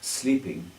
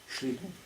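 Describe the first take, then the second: First: Sleeping begins with a plain s sound. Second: Sleeping begins with an sh sound. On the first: "he wasn't sleeping" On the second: "he was sleeping"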